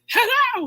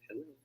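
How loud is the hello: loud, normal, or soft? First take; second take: loud; soft. First: It is said very loudly, near shouting. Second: It is said very quietly and weakly. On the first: "you're not at the top of your voice, right? Hello! You don't say that" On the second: "Hindi naman sobrang hina like, hello. No"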